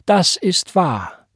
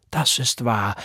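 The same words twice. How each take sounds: First: Second „das ist wahr“ slow, higher and louder; emphatic repeat. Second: Said in the usual way. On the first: A narrator's reading. Sister Price affirming with emphasis, slow and higher. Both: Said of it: "bekräftigte Sister Price mit Nachdruck".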